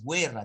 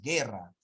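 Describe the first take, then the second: First: A 'w' sound follows the g. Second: No 'w' sound follows the g. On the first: The speaker calls it wrong. "No dices guerra" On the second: The speaker calls it right. "dices guerra"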